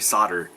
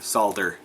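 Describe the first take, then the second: First: The word is said the American way. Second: The word is said the non-American way. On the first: "only us wacky Americans say solder" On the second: "buck the trend and start saying solder"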